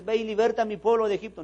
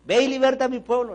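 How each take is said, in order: First: High, loud divine command; God commanding. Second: Much louder, higher divine command; booming God. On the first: God ordering Moses to free his people, commanding. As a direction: proclaim it as God giving orders. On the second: God repeating the order to Moses, booming. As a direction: thunder it out as God. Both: Retold or imitated.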